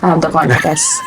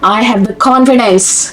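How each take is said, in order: First: It is said softly without any force. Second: It is said loudly with strong force. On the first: The speaker does not really believe it. The speaker calls it wrong. "ये नहीं" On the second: The speaker truly believes it. The speaker calls it right. "पर उस force के साथ बोलना"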